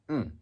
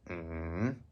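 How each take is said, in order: First: The pitch drops sharply from high to low. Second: The pitch dips low, then rises. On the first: "and falling" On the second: "falling, then rising"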